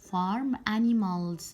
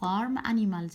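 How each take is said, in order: First: Farm animals drawn out very slowly; slow pronunciation. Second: Said in the usual way. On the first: Shown as a demonstration. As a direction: stretch each syllable of farm animals.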